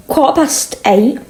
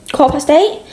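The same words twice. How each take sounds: First: Said in the usual way. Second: Higher, rising disbelief at "eight"; can't believe how late it is already; surprised question. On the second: Real, not acted. Realising the hour while eating dinner, surprised.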